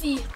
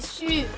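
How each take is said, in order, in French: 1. La voyelle est un son 'ee' non arrondi. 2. La voyelle est un son 'u' français arrondi. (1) "On ne dit pas si" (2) "on dit sûr"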